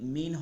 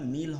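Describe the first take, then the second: First: The word ends with a clear n sound. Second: The word ends with an l sound. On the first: The speaker calls it wrong. "মিন হবে না" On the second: The speaker calls it right. "মিল হবে, লামকে ধরতে হবে"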